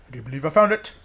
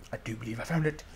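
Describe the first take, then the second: First: Fuller voice rising at the end; growing excitement. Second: Low, soft, cautious realization; hushed discovery. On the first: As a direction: repeat it openly, lifting the last words. Repeats find with growing excitement. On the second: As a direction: say it low, half to yourself. First hushed realization of find. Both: Real, not acted.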